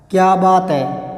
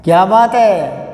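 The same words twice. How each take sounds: First: क्या बात है dragged out slowly, no exclamation; slow flat reading. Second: क्या बात है with a loud stressed बात and falling end; a louder exclamation of admiration. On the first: Teacher demonstrating the wrong, slow flat reading. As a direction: drawl it like a lazy question. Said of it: "ऐसे नहीं पढ़ना इसको". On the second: Teacher showing students the right exclamatory reading. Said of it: "इसको यूं पढ़ना है". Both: Shown as a demonstration.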